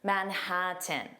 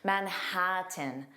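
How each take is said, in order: First: The T sound is fully released before tin. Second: The T sound is fully released before tin.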